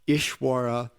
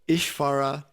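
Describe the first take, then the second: First: The consonant after 'Ish' is a W sound. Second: The consonant after 'Ish' is a V sound. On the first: "and in some W" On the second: "they pronounce it V"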